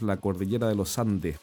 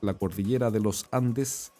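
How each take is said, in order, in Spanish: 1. Los sonidos s se omiten. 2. Los sonidos s se pronuncian claramente. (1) "nosotros no decimos las eses" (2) "en vez de decir"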